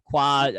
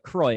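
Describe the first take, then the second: First: The name is said with a French pronunciation. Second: The name is said with an English pronunciation. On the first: The speaker calls it wrong. "I added a little extra flair to it... my the French background" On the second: The speaker calls it right. "But Croy"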